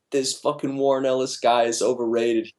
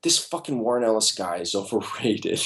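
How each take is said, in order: First: Lightly voiced, teasing parrot of the rant; mocking imitation. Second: Frustrated, dismissive outburst with a laugh; exasperated rant. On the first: Jim teasing his coworker by parroting him, mock rant. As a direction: mimic him back, ribbing. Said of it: "He's like". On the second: Retold or imitated. Artist blowing up over the script, exasperated. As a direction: vent it, fed up. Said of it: "I was like".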